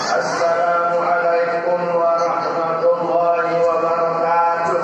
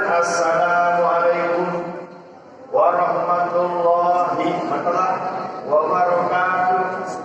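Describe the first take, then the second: First: The greeting runs straight through without stopping. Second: The greeting stops briefly after assalamualaikum. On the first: The speaker calls it right. "Langsung aja jos begitu. ... seperti itu" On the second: The speaker calls it wrong.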